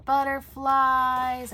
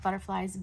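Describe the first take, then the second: First: "butterflies" stretched out slow, higher and louder; delighted. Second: Said in the usual way. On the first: Real, not acted.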